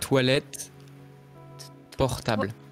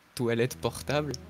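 First: The phrase is said slowly and carefully. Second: The phrase is said at normal conversational speed.

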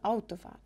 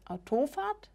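First: The stress is on the first syllable. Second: The stress is on the second syllable. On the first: The speaker calls it right. "sondern Autofahrt. Ja, der Beginn wird eben betont" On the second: The speaker calls it wrong. "nicht Autofahrt"

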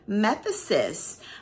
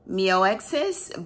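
First: The middle consonant is a 'th' sound. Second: The middle consonant is not a 'th' sound. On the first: The speaker calls it right. "but it's actually called Methesis" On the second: The speaker calls it wrong. "I think I pronounced it wrong on the initial video. I pronounced it MEOEXIS"

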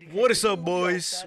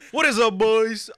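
First: It is said at a normal speaking volume. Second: It is yelled at a loud volume.

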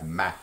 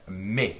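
First: The vowel is an open 'ah'-like sound. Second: The vowel is a closed 'ay' sound. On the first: This is how some other regions say it. "sometimes it's like ma, almost like an a sound" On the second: This is how many regions say it. "many regions pronounce M-A-I-S, me, with that A sound"

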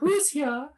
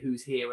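First: It is said imitating the Queen's voice. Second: It is said in a plain, normal voice.

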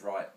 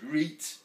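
First: The vowel is an eye diphthong. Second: The vowel is a long ee sound. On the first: "instead of right" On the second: "It's reet instead of right"

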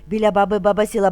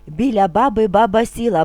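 First: It is spoken at a very fast pace. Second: It is spoken at a moderately quicker pace. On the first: "дуже швидко" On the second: "трошки швидше"

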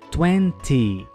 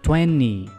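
First: The t sound in the middle is clearly pronounced. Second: The t sound in the middle is dropped. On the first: "No inglês britânico, as dezenas têm uma pronúncia que marca bem o som do T" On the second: "Já no inglês norte-americano, não temos o som do T"

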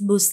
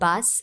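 First: The vowel is a long 'oo' sound. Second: The vowel is a short 'uh' sound. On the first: The speaker calls it wrong. "பூஸ் இல்ல" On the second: The speaker calls it right. "இல்ல பஸ்"

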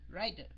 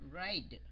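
First: The word is said quickly. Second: The word is said slowly and clearly. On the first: "Rồi mình nói nhanh nhanh cái ride" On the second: "phát âm rõ nó ra, chậm rãi và nhiều lần"

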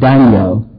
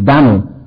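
First: The name is said with two syllables. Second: The name is said with one syllable. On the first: This is the English form of the name. "The English word at least two" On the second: This is the older American form of the name. "But the American, only one. ... That's the way Americans pronounced it"

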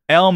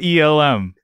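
First: It is said as one word, elm. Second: It is spelled out as three letters. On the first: The speaker calls it right. "Elm Effects" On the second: The speaker calls it wrong. "Not ELM. It looks like ELM"

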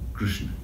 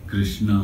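First: The name is said as one syllable without vowels. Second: The name is said in two syllables with vowels. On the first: The speaker calls it right. "The real pronunciation is one syllable" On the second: The speaker calls it wrong. "A lot of people mispronounce that word. It is not Krishna"

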